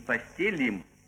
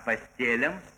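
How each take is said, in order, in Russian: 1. Конечная гласная звучит как 'i'. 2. Конечная гласная звучит как 'a'. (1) "не «постелим»" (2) "а «постелям»"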